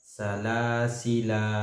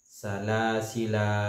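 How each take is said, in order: No difference in how they are said.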